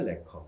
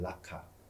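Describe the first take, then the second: First: It is said in the English-style form, le-keo. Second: It is said in the familiar local form, ra-ka. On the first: This is the official English name. "정식 영어 명칭이 레커입니다" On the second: This is the commonly known form. "우리가 알고 있는 라카"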